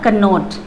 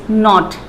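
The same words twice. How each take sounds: First: Cannot with the k sounded as kə; cannot, k sounded wrongly. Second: Slow knot said as nɔt; k silent. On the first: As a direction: say cannot with a k in front. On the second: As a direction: say knot slowly without the k. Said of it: "so it is knot". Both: Shown as a demonstration.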